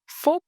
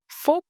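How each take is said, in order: No difference in how they are said.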